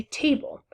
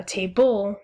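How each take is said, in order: First: Said in the usual way. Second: Table with the stress shifted onto the second syllable, ta-BLE; wrong stress on table. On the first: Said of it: "the natural way of saying it". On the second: Shown as a demonstration. Teacher showing class the unnatural stress, wrong stress on table. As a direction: say table slowly, weight on BLE. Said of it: "'cause you wouldn't say".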